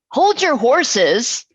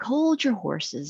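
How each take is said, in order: First: It is said in a harsh, unfriendly tone. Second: It is said in a nice, friendly tone. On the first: The speaker could be heard as rude or annoyed. "it could be obviously perceived a different way" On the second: The speaker is politely asking for patience. "if you say it in a nice way"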